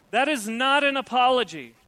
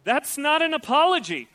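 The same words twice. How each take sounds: First: "an" hit hard, "That is not an apology" spelled out; stress on an. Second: Loud, higher, insistent; emphatic declaration. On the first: Preacher repeating the rebuke, stressing "an". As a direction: lean on "an" as the key word. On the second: Preacher rejecting fake apologies, emphatic and loud. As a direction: hammer the point home. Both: Real, not acted.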